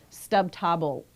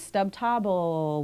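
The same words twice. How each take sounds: First: The final L sound is cut off abruptly. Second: The final L sound is drawn out. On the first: The speaker calls it right. "hear that that word coming to a stop" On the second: The speaker calls it wrong. "where you're kind of naturally dragging on that L sound"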